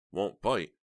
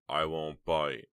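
First: Higher, louder incredulous echo; furious disbelief. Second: Slow, measured coaxing; insistent coaxing. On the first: Heather echoes his words in her head, furious. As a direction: throw it back in angry disbelief. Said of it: "so furious she could barely contain herself". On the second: Snowman invites Heather closer, slowly insisting. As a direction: coax her slowly and firmly. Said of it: "he insisted". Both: A narrator's reading.

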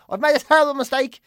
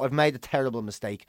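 First: "terrible" pushed higher and louder in mock panic. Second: Murmured under the breath, softer and lower; quiet regret. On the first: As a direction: blurt it out, suddenly alarmed. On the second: Retold or imitated. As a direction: mutter it to yourself, mortified. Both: Retelling regret at a bad outing.

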